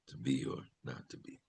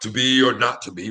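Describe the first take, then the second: First: It is delivered small, quiet and neutral. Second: It is delivered big and theatrically, overacted.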